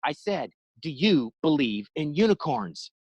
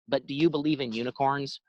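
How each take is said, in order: First: Each word spelled out, slower; slow insistent repeat. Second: Said in the usual way. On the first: Retold or imitated. Driver repeats his odd question to the McDonald's guy, slow and insistent. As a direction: repeat it deliberately like he missed it.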